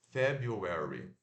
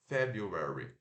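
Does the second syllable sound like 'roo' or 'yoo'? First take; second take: yoo; yoo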